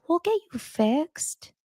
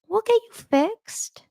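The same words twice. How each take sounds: First: High, slow soothing coo; wife soothing her sick husband, tender and high; tender mom. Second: Wishing someone said it to her, cooing slowly; dreamy tender echo. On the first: A mom that says. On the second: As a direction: savour it like a lullaby. Say that to me when I'm sick. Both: Retold or imitated.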